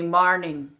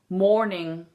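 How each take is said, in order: First: It is said in an Irish accent. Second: It is said in a plain accent.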